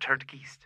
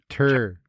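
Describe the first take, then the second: First: A d sound comes before 'geist'. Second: No d sound comes before 'geist'. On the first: The speaker calls it wrong. "there's no D" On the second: The speaker calls it right. "I don't want the D"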